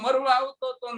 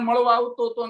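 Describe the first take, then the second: First: The first word has an R sound. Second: The first word has a retroflex L sound. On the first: He was coming to die. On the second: He was coming to meet.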